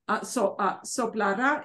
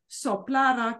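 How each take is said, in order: First: The stress falls on the last syllable. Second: The stress falls on the middle syllable. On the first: It refers to a future action. "The emphasis is different. Soplara, soplara is future" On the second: It is a past subjunctive form. "Soplara comes from past subjunctive"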